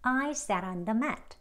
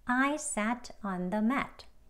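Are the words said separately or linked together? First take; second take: linked; separately. First: The words flow together in one stream. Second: Each word is said separately and carefully. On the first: "대화 발음으로 ... 흐르는 대로 쭉" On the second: "책 발음이요"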